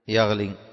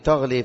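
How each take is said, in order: First: The verb begins with a y sound. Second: The verb begins with a t sound. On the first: "بالياء" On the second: "بالتاء"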